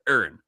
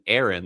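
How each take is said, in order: First: The name is said in a Philadelphia accent. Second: The name is said in a neutral accent.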